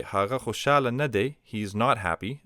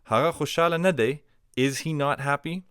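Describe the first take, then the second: First: "Hara khushala nade" stated as fact; statement intonation. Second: "Hara khushala nade" pitched high as a question; question intonation. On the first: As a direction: assert "Hara khushala nade" without asking. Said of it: "as a statement". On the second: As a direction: ask "Hara khushala nade" with raised, querying tune. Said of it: "turn it into a question just by changing the intonation". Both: Shown as a demonstration.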